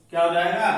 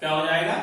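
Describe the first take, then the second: No difference in how they are said.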